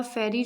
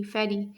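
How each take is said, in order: First: Syllable-by-syllable "फेरी", gap between फे and री; split into syllables. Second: Said in the usual way. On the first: Shown as a demonstration. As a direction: say "Pheri" as two separate units, फे - री. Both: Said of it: "जब उसको divide किया गया".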